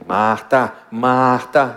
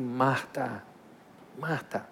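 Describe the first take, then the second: First: It is said in a harsh, legalistic tone. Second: It is said gently and patiently again.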